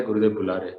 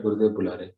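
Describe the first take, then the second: First: Lower, grave repeat; stone-faced, repeat it gravely; same solemn message, lower again; serious tone. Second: Lower, grave announcement; solemn messenger voice, pitched low; serious tone. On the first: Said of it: "तो फिर serious मु-, चेहरा बना लिया". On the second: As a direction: deliver it dead serious, lower. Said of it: "बहुत serious आवाज से बोल रहा है". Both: Retold or imitated.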